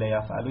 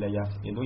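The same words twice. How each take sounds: First: یفعلو said yaf-A-lu, open a on the ain; یفعلو voiced yaf'alu, short a in the middle; teacher naming the bab with یفعلو as yaf'alu; yaf'alu with fatha. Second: یفعلو said yaf-I-lu, short i on the ain; یفعلو voiced yaf'ilu, short i in the middle; teacher naming the bab with یفعلو as yaf'ilu; yaf'ilu with kasra. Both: Shown as a demonstration.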